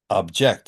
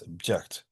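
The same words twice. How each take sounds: First: The first vowel is a full, unreduced vowel. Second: The first vowel is reduced to a schwa. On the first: The speaker calls it wrong. "It's not object" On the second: The speaker calls it right. "It's just a schwa"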